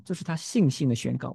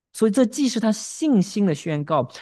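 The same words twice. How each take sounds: First: Said in the usual way. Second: “这” struck high and loud, then falling; emphatic summary. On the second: Shown as a demonstration. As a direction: open hard on “这” to drive the summary home. (高声重读“这”，语气下落作总结)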